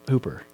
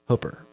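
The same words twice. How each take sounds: First: The name is said as it is spelled. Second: The name is said the local way. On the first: The speaker calls it wrong. "It looks like it, H O O P E R" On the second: The speaker calls it right. "Only to Nebraskan would that make sense that it's Hooper"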